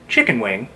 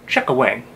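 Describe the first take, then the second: First: Chicken is said in full, with the n. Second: Chicken is clipped to chuck-a, dropping the n. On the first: This is the usual northeastern way. "Instead of saying chicken wing" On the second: This is how locals in the town say it. "we can say chuck-a wing"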